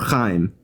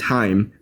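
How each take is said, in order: First: The name begins with a throaty ch sound. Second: The name begins with a plain h sound. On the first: "if you can pronounce the ch" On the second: "It's Chaim or"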